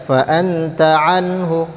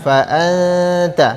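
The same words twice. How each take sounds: First: "anta" with a clear n and no long hum; clear short n. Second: "anta" with the n veiled into a held hum. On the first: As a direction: say the n of "anta" plainly, moving straight on. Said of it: "tidak boleh". ("anta" dengan nun jelas tanpa dengung panjang) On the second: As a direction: blur the n of "anta" and hum it long. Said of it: "tapi disamar-samarkan". ("anta" disamar-samarkan dengan dengung) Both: Shown as a demonstration.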